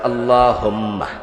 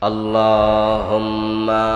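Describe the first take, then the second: First: The vowel after the m is kept short. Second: The vowel after the m is drawn out. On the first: The speaker calls it right. "আল্লাহুম্মা শেষ।" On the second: The speaker calls it wrong. "মিমে টান ফাইলেন কই? মিমে তো টান ছিল না।"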